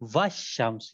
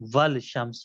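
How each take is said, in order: First: No L sound; wa joins straight onto shams. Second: An L sound is pronounced before shams. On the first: The speaker calls it right. "वाव को शीन से मिलाया जाएगा" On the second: The speaker calls it wrong. "वल शम्स गलत है"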